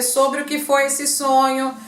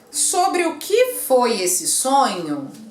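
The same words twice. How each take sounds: First: It is read flatly like an ordinary statement. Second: It is read with the intonation of a question. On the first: The speaker calls it wrong. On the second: The speaker calls it right.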